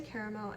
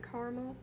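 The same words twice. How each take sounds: First: "caramel" in one of its two common pronunciations; contrasting pronunciation of "caramel"; first caramel variant. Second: "caramel" in the other common pronunciation; contrasting second take on "caramel"; second caramel variant. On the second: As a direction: switch "caramel" to its alternate pronunciation. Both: Shown as a demonstration. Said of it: "I say caramel and caramel".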